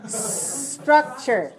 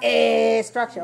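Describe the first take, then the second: First: The word begins directly with s. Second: A vowel sound comes before the s. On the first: The speaker calls it right. "Make sure you start with s" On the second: The speaker calls it wrong. "Don't put a vowel before it"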